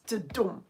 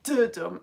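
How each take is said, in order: First: Du-DUM, light first syllable in "dudum"; end-stressed "dudum"; stress on second beat. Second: DU-dum, heavy first syllable in "dudum"; wrongly front-stressed "dudum"; stress on first beat. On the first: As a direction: skip lightly over du, land on DUM in "dudum". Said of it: "it's dudum". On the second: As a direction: hit the DU of "dudum", let dum fall. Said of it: "beat that is stressed. So it's not dudum". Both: Shown as a demonstration.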